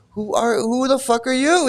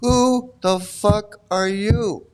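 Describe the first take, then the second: First: High-pitched, quick mock challenge; indignant, pitched up. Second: Very slow, word by word; drawn-out, deliberate challenge; slow indignant challenge. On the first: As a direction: toss it out high, playing the offended guru. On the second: Acted. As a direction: space out each word for mock menace. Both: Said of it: "what he's saying".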